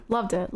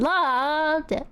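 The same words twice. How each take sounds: First: Said in the usual way. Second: Loved it, lifted up high; playful echo, pitched up; higher playful repeat. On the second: Shown as a demonstration. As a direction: sing it out brighter.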